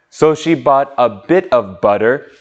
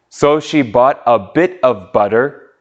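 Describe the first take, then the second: The two takes are said the same way.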